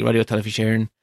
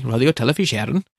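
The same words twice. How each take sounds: First: Said in the usual way. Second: A hammed-up stage Irish lilt on Radio Telefís Éireann, a touch quick; terrible Irish accent. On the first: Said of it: "don't know why I said that with such a terrible". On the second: Shown as a demonstration. Podcaster naming Ireland's broadcaster, in an exaggerated Irish accent. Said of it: "said that with such a terrible diddly-eye accent".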